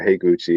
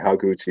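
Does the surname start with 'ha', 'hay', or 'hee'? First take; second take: hay; ha. First: The first syllable sounds like 'hay'. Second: The first syllable sounds like 'ha'. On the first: "or Heiguchi, and it's like, no, that's not right" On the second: "Sometimes I accidentally say Haguchi"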